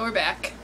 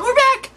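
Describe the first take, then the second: First: It is said flatly, with little energy. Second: It is said brightly, with lots of energy. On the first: The speaker calls it wrong. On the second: The speaker calls it right.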